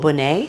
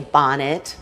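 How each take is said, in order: First: The name is said with a French pronunciation. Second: The name is said like the English word bonnet. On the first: "with the French pronunciation" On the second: "Or some people will say bonnet"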